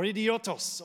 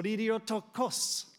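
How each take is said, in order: First: Idiotos said without the "kos" ending; idiotos, the shorter Greek form ending "-tos"; Greek pronunciation variant. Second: Idiotokos with an added "ko" before the final s; idiotokos, the longer Greek form ending "-tokos"; Greek pronunciation variant. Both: Shown as a demonstration. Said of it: "depending on how you pronounce it".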